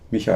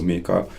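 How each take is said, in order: First: The name is pronounced the German way. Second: The name is pronounced the Swedish way. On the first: "how would you pronounce that in German" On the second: "he's actually Swedish speaking, so"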